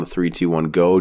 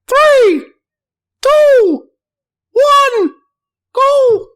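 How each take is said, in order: First: It is said in his normal voice. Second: It is said in a high put-on voice.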